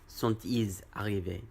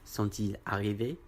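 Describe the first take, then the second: First: A z sound links ils to arrivés. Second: There is no z sound before arrivés. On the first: The speaker calls it wrong. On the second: The speaker calls it right. "on dit"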